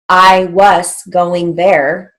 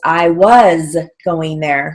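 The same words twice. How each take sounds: First: "Was" ends with a hissing s sound. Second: "Was" ends with a buzzing z sound. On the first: The speaker calls it wrong. "We don't say" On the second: The speaker calls it right. "So we use our final Z"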